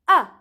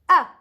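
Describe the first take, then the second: First: The pitch starts high and falls sharply. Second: The same.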